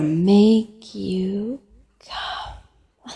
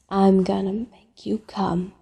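First: Drawn-out, deliberate promise; slow teasing. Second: Said in the usual way. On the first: Acted. Caller repeating a promise to tease Jack, slowly. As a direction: stretch each word out slowly.

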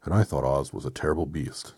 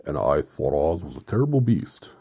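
First: Firm, slightly loud, level-pitched voice; Tin Woodman. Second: Loud, swooping character voice; wrong character voice. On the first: Metal man recalling Oz to friends, firm even voice. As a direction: say it evenly, without the big swoop. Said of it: "said the Tin Woodman". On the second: Reader mistaking whose line it is, loud swooping voice. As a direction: boom it out with a big swoop on beast. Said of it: "Oh, that was the Woodman". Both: Acted.

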